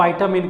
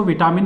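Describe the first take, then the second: First: विटामिन in the English manner, VY-ta-min, opening on vai; pure English pronunciation. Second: विटामिन said the everyday Hindi way, vi-TAA-min with a short i; Hindi pronunciation. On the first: Teacher giving students the pure English pronunciation of विटामिन, vai-ta-min. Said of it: "इसका जो शुद्ध उच्चारण है अंग्रेजी में". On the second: Teacher showing exam students the Hindi way of saying विटामिन, vi-taa-min. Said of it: "Hindi में इसको विटामिन बोलते हैं". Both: Shown as a demonstration.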